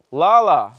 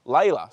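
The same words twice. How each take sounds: First: Lala said as LAH-lah, both vowels open ah; the wrong reading, Lala as LAH-lah; mispronounced name. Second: Layla said LAY-luh, first vowel like say; corrected name. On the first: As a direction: Lala with a flat ah sound in both syllables. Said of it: "I've fucking pronounced your name wrong". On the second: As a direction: Layla with a clear ay in the first syllable, a careful correction. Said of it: "Sorry, I've fucking pronounced your name wrong". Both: Real, not acted.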